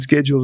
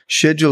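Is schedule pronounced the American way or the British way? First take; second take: American; British. First: The word is said the American English way. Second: The word is said the British English way. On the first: "schedule is American" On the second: "schedule is English"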